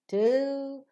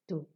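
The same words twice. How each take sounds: First: The voice rises on the word. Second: The voice falls on the word. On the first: The speaker calls it right. "All the other enumerated things, counted things will receive the rising tone" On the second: The speaker calls it wrong. "So you will not say one, two, three. You will not fall down"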